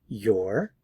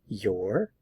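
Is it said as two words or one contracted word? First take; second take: contracted; contracted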